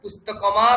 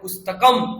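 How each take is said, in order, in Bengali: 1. চূড়ান্ত ম-এর পরে একটি স্বরধ্বনি আছে। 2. শব্দটি একটি খালি ম ধ্বনিতে শেষ হয়। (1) "পুস্তকমা তাও নয়" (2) "কোনো স্বরবর্ণ স্বরবর্ণ নেই"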